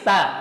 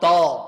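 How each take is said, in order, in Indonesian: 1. Bunyi t-nya tipis, vokalnya jernih. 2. Bunyi t-nya tebal, vokalnya gelap. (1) "tipis ta" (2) "Jangan tak itu tebal"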